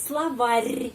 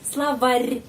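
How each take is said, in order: Both takes have the same delivery.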